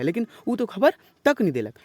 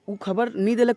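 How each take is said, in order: First: तक pressed a little, falling after; stress on तक. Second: Said in the usual way. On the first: Shown as a demonstration. Teacher showing students the particle, a light stress on तक. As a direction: lean on तक to show the particle. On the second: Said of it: "ये तो simple है".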